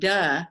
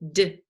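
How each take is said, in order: First: A d sound followed by an added uh vowel. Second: A short d sound with no vowel after it. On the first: The speaker calls it wrong. "because it's not duh" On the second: The speaker calls it right. "Kind of keep your teeth together when you make it"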